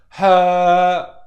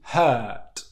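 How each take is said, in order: First: The word is said slowly with a long vowel. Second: The word is said quickly at normal speed. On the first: "Slow down with the two second rule" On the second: "at native speed"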